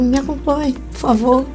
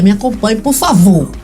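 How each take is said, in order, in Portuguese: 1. É dito num tom brincalhão e convidativo. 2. É dito num tom severo e de comando. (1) "Você não quer ir tomar um drink comigo" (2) "Vamos para a delegacia"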